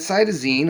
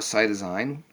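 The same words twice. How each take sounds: First: The last syllable rhymes with 'seen'. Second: The last syllable rhymes with 'sign'. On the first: "if you want to say ene" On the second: "or ine"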